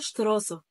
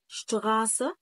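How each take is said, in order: First: شتراسة with an Arabic tongue-tip r; the mistaken شتراسة, r at the front, not gh; wrong rolled R. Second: شتغاسة with a throaty gh for the r; German شتغاسة, the r made at the back of the throat; R as ghain. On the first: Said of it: "ما ينفعش أقول شتراسة". (نطق شتراسة بالراء غلط) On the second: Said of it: "اتنطقت هنا غين". (نطق شتغاسة بالغين) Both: Shown as a demonstration.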